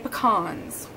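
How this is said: It uses the pronunciation Texans use. This is how locals say it. The speaker calls it right. "I'm from Texas, and ... we say pecans"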